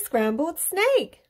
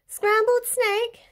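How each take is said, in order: First: Said in the usual way. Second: Slow, high-pitched startled question; shocked echo. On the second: A narrator's reading. Snake learns he is the favourite food, shocked. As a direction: squeal it back in drawn-out disbelief.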